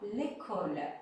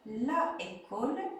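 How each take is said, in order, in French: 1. La voyelle de l'article tombe et se lie à école. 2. L'article garde sa voyelle pleine devant école.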